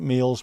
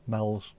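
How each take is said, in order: First: The vowel is long, like in 'meals'. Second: The vowel is short, like in 'mells'. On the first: This is how it is said locally. "we pronounce it meals" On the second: This is how it is said in Formby. "Argamel's, M E O L S. Mel's"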